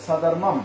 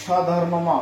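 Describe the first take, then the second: First: স্বধর্মম ending on a closed "m"; correct final m. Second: স্বধর্মম with an added vowel after the last ম; wrongly voiced ending on স্বধর্মম, last ম not closed; mispronounced final vowel. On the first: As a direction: let the last ম of স্বধর্মম stop without a vowel. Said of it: "মটা এখানে এসে ছেড়ে যাবে". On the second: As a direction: draw out an open "o" at the end of স্বধর্মম. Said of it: "উচ্চারণ সঠিক হবে না". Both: Shown as a demonstration.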